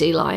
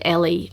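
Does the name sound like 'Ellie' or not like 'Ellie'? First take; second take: not Ellie; Ellie. First: The name is said not sounding like Ellie. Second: The name is said sounding like Ellie. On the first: The speaker calls it right. "of course, I know it's Eli" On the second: The speaker calls it wrong. "I kept on pronouncing it Ellie"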